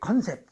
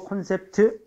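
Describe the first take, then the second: First: It has two syllables with no final 'teu'. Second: It has three syllables ending in 'teu'. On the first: The speaker calls it wrong. "컨셉 이래서 많이 틀리지" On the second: The speaker calls it right. "컨셉은 안 되고 콘셉트"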